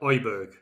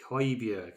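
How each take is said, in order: First: The H is dropped in a northern English accent. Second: The name begins with a clear H sound. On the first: The speaker calls it wrong. "much better than my northern twang there" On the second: The speaker calls it right. "I like the way you uh, said Hoiberg as well. Pronounce that beautifully then"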